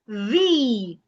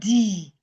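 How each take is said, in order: First: The word starts with a voiced th sound. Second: The word starts with a hard d sound. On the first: The speaker calls it right. "It is the" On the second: The speaker calls it wrong. "A lot of people pronounce this word as D. It is not D"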